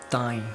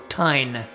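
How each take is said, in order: First: The vowel is nasalized, with no N consonant. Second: A full N consonant is heard at the end. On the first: The speaker calls it right. "You want to go" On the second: The speaker calls it wrong. "you don't want to go tine. You don't want to say the N"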